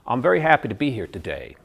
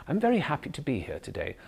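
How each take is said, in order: First: American tune that lands hard on "today"; louder, firm American drop at the end; American hard landing. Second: RP line that gently rises and lands softly on "today"; British soft landing. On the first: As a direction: general American, hard final fall. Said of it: "they come down hard at the end". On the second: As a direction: musical British tune, softer at the end. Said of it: "the British has a soft landing". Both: Shown as a demonstration.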